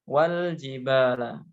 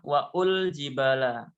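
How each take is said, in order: First: Wa joins straight onto l with no extra vowel. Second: An extra u vowel follows wa before l. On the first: The speaker calls it right. "dibaca wal jibala" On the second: The speaker calls it wrong. "Tidak dibaca waul jibala"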